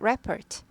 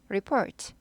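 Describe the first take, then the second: First: The stress is on the first syllable. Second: The stress is on the second syllable. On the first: It is the noun meaning a written report. "명사일 때, 보고서일 때" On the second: It is the verb meaning to report. "동사일 때"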